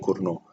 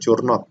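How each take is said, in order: First: The final T is silent at the end. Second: The final T is pronounced at the end. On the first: The speaker calls it right. "T-nya nggak dibaca, jadi bacanya Kurno" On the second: The speaker calls it wrong. "bukan bukan Curnot ya"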